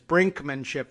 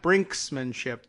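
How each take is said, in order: First: It is said with no S after brink. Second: It is said with an S after brink. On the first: The speaker calls it right. "It is brinkmanship" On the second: The speaker calls it wrong. "I don't know why we all like to add that S"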